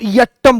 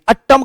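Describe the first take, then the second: First: The word begins with a 'ya' sound. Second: The word begins with a plain 'a' sound. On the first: It means dance. The speaker calls it right. "यट्टम बोलोगे तो वो नृत्य में आता है" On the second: It would mean eight. The speaker calls it wrong. "अट्टम का मतलब आठ हो जाता है"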